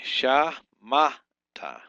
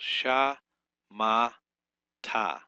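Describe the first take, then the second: First: "sha, ma, ta" with "ma" punched much louder; stress on middle syllable. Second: "Sha, ma, ta" with the stress wrongly on "Sha", first syllable leaned on; syllable by syllable, hit "Sha" instead of "ma". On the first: Hebrew teacher correcting himself with the stress on "ma". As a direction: hit the middle "ma" hard, keep "sha" and "ta" light. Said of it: "It's actually on this middle syllable here". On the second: Hebrew teacher sounding out Shamata, mistakenly stressing "Sha". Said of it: "I got the accent on the wrong syllable". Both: Shown as a demonstration.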